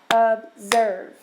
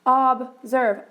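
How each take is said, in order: First: "Observe." said in two beats, ob and serve, each one marked; clapped out by syllable. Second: "Observe." with a short open O, like "ahb-zerv". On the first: Teacher to class breaking the word into parts, clapped syllables. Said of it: "Clap it out". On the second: Teacher to class showing the short O sound, modelled clearly. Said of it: "this is a short O". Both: Shown as a demonstration.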